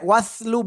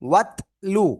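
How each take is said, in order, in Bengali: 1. মাঝের ব্যঞ্জনটি s ধ্বনি। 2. মাঝের ব্যঞ্জনটি t ধ্বনি। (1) "ওয়াসলু বললে হ- ভুল হয়ে যাবে" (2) "এটা তা আর উপরে সাকিন"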